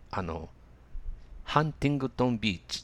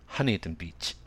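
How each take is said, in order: First: It is said with Japanese katakana sounds. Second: It is said with English sounds. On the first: "日本のテレビニュースで聞いたときに、日本語ではこういうのかと思った" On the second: "英語の発音ではどういうかというと"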